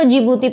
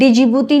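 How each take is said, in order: First: The name starts directly with a 'j' sound. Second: The name starts with a separate 'dee' sound. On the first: The speaker calls it right. "डी silent तो हम उसको जिबूती पढ़ते हैं" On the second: The speaker calls it wrong. "डी जिबूती नहीं पढ़ते"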